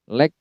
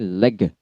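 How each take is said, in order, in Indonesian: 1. Kata ini berakhir langsung pada g. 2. Ada vokal tambahan yang ditambahkan setelah g.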